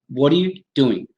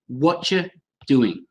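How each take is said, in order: First: It is said in a neutral accent. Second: It is said in a London accent.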